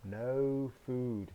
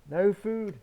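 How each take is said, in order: First: Said in the usual way. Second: Exclaimed. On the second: Acted. Wolf finds empty cupboard.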